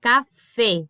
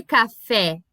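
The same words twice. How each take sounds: First: "café" ending in closed ê, "cafê"; Spanish "café", final E closed and set apart. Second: "café" ending in open é; the non-Spanish "café", with open final E. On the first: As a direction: say "café" with the last E narrow. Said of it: "É sempre fechado". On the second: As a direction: say "café" the Portuguese way, E wide open. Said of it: "porque esse som de E, ele não existe". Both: Shown as a demonstration.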